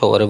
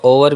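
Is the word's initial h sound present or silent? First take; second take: present; silent. First: The word starts with an h sound. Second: The word starts without an h sound.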